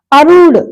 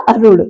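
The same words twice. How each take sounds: First: अरुण louder, rū drawn out; wrong long vowel. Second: अरुण lower, with quick ru; correct short vowel. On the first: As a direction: stretch the middle of अरुण. (अरुण में ऊ खींचकर) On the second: (अरुण में छोटा उ) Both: Shown as a demonstration. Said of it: "का क्या हो जाएगा?".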